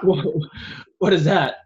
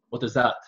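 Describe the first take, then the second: First: Hammed-up Russian accent, higher and louder; a Russian guard barking a question in a thick put-on accent; loud mock Russian accent. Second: Lightly mocked Russian accent on a guard's question; a hint of a Russian guard's accent, barely put on; bad Russian accent. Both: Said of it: "terrible Russian accent".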